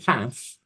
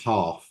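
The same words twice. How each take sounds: First: It is said with an American vowel. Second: It is said with a British vowel. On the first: "let me translate. So half in uh" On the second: "English is half"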